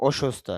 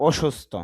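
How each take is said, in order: The two takes are said the same way.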